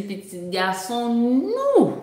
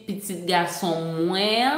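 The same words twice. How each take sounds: First: "nous" drawn out long and falling; stress on "nous". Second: Slow, with "moins" drawn out and rising at the end; stress on "moins". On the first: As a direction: land hard on "nous" and hold it. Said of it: "elle a mis l'accent tonique sur le mot nous". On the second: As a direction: stretch "moins" at the end, lifting it. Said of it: "mais sous mes accents". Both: Shown as a demonstration.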